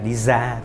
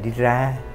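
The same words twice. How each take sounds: First: It is said in a Northern Vietnamese accent. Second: It is said in a south-Central Vietnamese accent. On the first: "ngoài Bắc như cô gọi là đi ra" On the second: "Miền Trung xuống dưới một chút thì gọi là đi ra"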